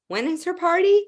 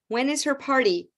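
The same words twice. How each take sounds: First: The pitch rises at the end. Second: The pitch falls at the end. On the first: The asker thinks they know and wants to confirm. "when you think you know and you just want to confirm, ... Then we use rising intonation" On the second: The asker has no idea of the answer. "You have no idea. So we use falling intonation"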